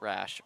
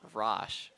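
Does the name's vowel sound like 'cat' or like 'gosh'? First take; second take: cat; gosh. First: The vowel sounds like the one in 'cat'. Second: The vowel sounds like the one in 'gosh'. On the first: The speaker calls it wrong. "Not Rash" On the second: The speaker calls it right.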